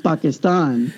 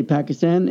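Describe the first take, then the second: First: Pakistan as PAH-kiss-tahn, broad a sounds; native pronunciation. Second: Pakistan as PACK-iss-tan, flat a sounds; American pronunciation. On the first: Retold or imitated. Pakistanis correcting him, Pakistan said the native way. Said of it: "they're like". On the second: Shown as a demonstration. Answering fellow Pakistanis, Pakistan said American style. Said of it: "they'll say".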